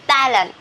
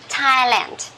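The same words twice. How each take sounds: First: The word begins with a soft TH sound. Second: The word begins with a plain T sound. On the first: The speaker calls it wrong. "we don't pronounce this one as Thailand" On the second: The speaker calls it right. "This is T"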